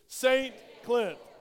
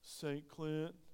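First: It is said loudly, with confidence. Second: It is said weakly, without energy.

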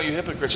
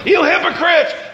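First: It is said mildly and quietly. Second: It is said forcefully and loudly.

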